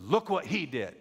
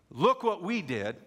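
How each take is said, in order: First: "he" pressed, loud, falling close; stress on he. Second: "we" held out, loud and slow; stress on we. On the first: Preacher giving the new words, "he" stressed. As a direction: Look what "he" did, weight on "he". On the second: Preacher quoting the old boast, "we" stressed. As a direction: Look what "we" did, leaning on "we". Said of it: "We'll change from saying". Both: Shown as a demonstration.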